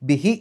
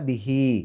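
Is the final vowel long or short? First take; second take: short; long. First: The final vowel is short. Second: The final vowel is held long. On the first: The speaker calls it wrong. "ബിഹി എന്ന് പറഞ്ഞ പോരാ" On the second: The speaker calls it right. "രണ്ടക്ഷരത്തിൻ്റെ ദൈർഘ്യം നീട്ടണം"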